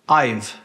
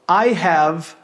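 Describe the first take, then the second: First: The words are contracted into one syllable. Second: Both words are said in full.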